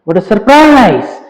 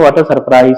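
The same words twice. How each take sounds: First: It sounds genuinely surprised and excited. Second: It sounds plain and flat, without surprise.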